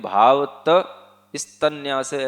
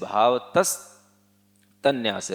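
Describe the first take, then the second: First: The half 's' is said separately afterward. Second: The half 's' closes the first word. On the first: The speaker calls it wrong. "आधा सा अगर आप बाद में बोलेंगे ... ऐसे बोलेंगे तो वो गलत हो जाएगा" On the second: The speaker calls it right. "सा को उससे पहले बोल लेना है"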